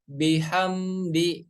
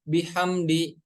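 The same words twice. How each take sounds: First: The m sound flows on slightly before d. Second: The m sound is cut off abruptly. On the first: The speaker calls it right. "ketika berharokat sukun harus dialirkan sedikit" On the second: The speaker calls it wrong.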